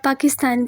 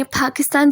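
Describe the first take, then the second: First: Said in the usual way. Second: पाकिस्तान with a puff of air on the first P; aspirated P. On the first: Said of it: "आप पाकिस्तान कह लें". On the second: Shown as a demonstration. Teacher saying learners need not copy this, aspirated P. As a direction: open पाकिस्तान as "Phakistan". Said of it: "आपने पाकिस्तान ज़रूर कहना है".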